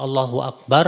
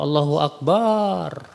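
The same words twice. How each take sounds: First: The vowel after b in Akbar is short. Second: The vowel after b in Akbar is lengthened. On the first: God is the greatest. The speaker calls it right. "artinya kan Allah paling besar" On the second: God is a drum. The speaker calls it wrong. "Barunya dipanjangin"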